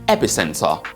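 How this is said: It is said with a British BBC accent. "B B C pronunciation"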